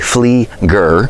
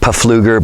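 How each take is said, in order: First: The name begins with an F sound. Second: The name begins with a spoken P sound. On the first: This is the actual pronunciation. The speaker calls it right. "it is actually" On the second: This is how most people say it. The speaker calls it wrong. "Most people pronounce it"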